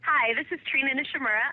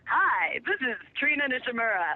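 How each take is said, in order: First: It is spoken in a plain, natural voice. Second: It is spoken in a put-on radio announcer voice. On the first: "I'll just um" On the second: "I'll give you my best radio announcer voice"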